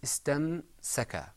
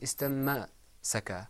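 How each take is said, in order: First: The m goes straight into the s. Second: A vowel is sounded right after the m. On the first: The speaker calls it right. "It was istam saka. The moment I finished pronouncing the meme, it went straight into the scene" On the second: The speaker calls it wrong. "It wasn't istamma saka"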